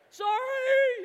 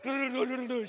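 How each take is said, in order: First: Loud, high, drawn-out holler; yelled apology. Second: Quick apology called in passing. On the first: Skier to lady already gone behind him, long high yell. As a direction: yell sorry after someone far behind you. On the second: Skier to lady whose skis he cut across, called-out apology. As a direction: call sorry as you careen past. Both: Retold or imitated.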